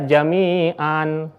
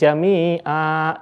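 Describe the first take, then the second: First: The word ends with a short vowel and n. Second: The word ends with a long drawn-out vowel. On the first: The speaker calls it wrong. "tidak boleh dibaca jami'an" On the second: The speaker calls it right. "jami'a dengan dipanjangkan"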